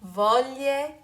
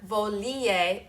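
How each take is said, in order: First: The middle sounds join in one smooth glide. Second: An extra vowel sound is added before the ending. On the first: The speaker calls it right. "but rather there's this beautiful glide" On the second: The speaker calls it wrong. "be careful not to add an extra vowel in there"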